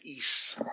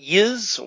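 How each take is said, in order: First: The word begins with an 'ee' sound. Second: The word begins with a 'y' sound. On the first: The speaker calls it right. "apparently it's supposed to be pronounced East" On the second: The speaker calls it wrong. "Some people would pronounce it Yiz"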